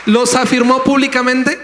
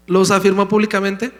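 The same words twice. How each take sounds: First: High, loud pulpit question rising on "públicamente"; fiery question that lifts hard on "públicamente"; loud rhetorical question. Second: Said in the usual way. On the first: Real, not acted. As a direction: shout "¿Los afirmó públicamente?" up to the back row. Preacher repeats rhetorical question.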